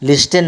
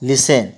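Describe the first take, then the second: First: A t sound is pronounced in the middle. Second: No t sound is pronounced in the middle. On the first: The speaker calls it wrong. "लिस्टन नहीं होता है" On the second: The speaker calls it right. "टी का उच्चारण नहीं होता है"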